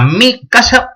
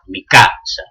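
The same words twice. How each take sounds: First: The possessive mi carries its own stress. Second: Only the first syllable of casa is stressed. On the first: This is the Asturian pattern. "y es tónico, y es tónico" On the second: This is the Castilian pattern. "nada más hay un acento, un fónico, que es en la primera sílaba de casa"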